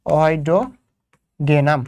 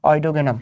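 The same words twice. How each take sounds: First: অইডোগেনাম stretched out very slowly, syllable by syllable; slow, drawn-out name. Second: Said in the usual way. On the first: Shown as a demonstration. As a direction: draw out অইডোগেনাম slowly, hunting for the word. (অইডোগেনাম খুব ধীরে টেনে টেনে বলা) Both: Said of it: "আমি যদি ভুল না হয় এটাই".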